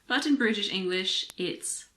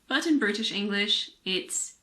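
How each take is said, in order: Both takes have the same delivery.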